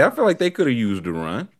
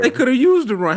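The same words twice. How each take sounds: First: Said in the usual way. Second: High, dry sarcastic jab. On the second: Real, not acted. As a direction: tease it, higher. Sarcastic quip.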